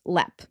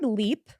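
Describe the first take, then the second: First: The vowel is a short e sound. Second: The vowel is a long ee sound. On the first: This is the pronunciation used in Ireland. "in Ireland is pronounced as lep" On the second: This is the usual American pronunciation. "the word leap, as we know in America"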